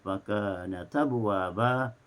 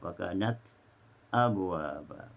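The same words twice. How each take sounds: First: The t runs straight into abwaba's vowel. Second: A brief silent break comes before abwaba. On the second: "dibaca dengan saktah"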